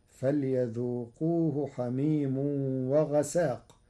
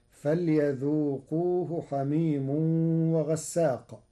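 First: وغساق said with a single, undoubled sin: ghasāq; Warsh light sin. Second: Said in the usual way. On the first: Shown as a demonstration. Teacher showing وغساق with a light sin. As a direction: recite وغساق without stressing the sin. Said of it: "فتصير". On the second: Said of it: "قرأ ورش كلمة وغساق".

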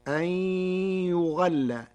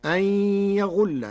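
First: يغل as yughalla, u on ya, a on ghain; Warsh reading. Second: Said in the usual way. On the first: Shown as a demonstration. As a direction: damma on ya and fatha on ghain in يغل. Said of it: "بضم الياء وفتح الغين". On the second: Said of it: "قرأ ورش كلمة يغل بضم الياء".

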